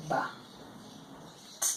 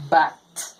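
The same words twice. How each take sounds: First: "Ba" and "T" said apart with a long pause; sounded out. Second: "But" said as one word with a short "ah" vowel; blended word. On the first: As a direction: sound out Ba, then a lone T. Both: Shown as a demonstration. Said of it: "look at this word".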